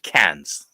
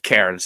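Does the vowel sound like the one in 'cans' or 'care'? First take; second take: cans; care. First: The vowel sounds like the one in cans. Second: The vowel sounds like the one in care. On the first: "They pronounce it cans, like tin cans" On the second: "it's spelled Cairns"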